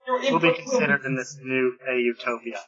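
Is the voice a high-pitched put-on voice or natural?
natural. It is said in a plain, natural voice. The speaker calls it wrong. "You didn't do the ridiculous voice"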